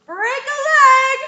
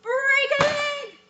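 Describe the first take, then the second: First: High, loud call from off stage; loud cheering call; offstage yell. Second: Mock yell. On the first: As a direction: shout it from the wings. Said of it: "will probably yell". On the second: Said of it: "someone from off stage will probably yell". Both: Shown as a demonstration.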